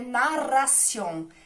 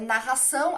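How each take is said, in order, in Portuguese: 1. A palavra é dita com pronúncia espanhola. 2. A palavra é dita com pronúncia portuguesa. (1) "aqui é" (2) "em português seria"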